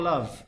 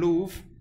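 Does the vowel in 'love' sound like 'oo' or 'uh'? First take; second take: uh; oo. First: The vowel is the short modern 'uh' sound. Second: The vowel is a long 'oo' sound. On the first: This is the present-day pronunciation. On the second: This is the older pronunciation that rhymes with prove.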